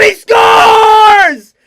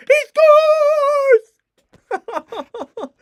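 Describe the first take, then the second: First: Full, high scream of the goal; goal shout. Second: Imitating voice crack. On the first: Real, not acted. Commentator screaming the goal for his team. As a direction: explode on the goal call. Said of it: "craziest voice crack ever". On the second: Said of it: "My voice crack too was actually insane".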